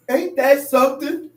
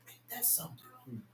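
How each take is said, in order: First: Said in the usual way. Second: Unvoiced hush of wonder; lowered preaching whisper. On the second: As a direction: whisper it to the congregation. Preacher whispers then shouts phrase.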